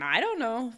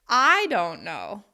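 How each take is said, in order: First: The word I is not specially stressed. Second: The word I is strongly stressed. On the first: The speaker is unsure. "you hear that stress pattern" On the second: The speaker doesn't know, but someone else might. "you can stress the word I"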